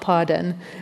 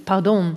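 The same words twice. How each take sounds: First: The word is pronounced the English way. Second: The word is pronounced the Dutch way. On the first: It is a middle-class English word imitating wealth. The speaker calls it wrong. "It's not pardon" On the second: It is a Dutch expression, not an imitation of posh English. The speaker calls it right. "This is Dutch. It's pardon"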